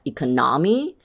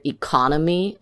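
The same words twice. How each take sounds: First: "economy" as e-co-NO-my; wrong stress. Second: "economy" as e-CON-o-my; correct stress. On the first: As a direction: shift the weight in "economy" to the third syllable. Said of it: "it sounds strange". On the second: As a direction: stress the second syllable of "economy". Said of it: "if you say the word". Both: Shown as a demonstration.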